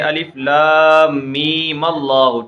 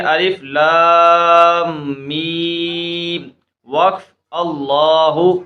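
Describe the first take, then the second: First: Mim is joined to Allahu without a pause. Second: There is a stop after mim before Allahu.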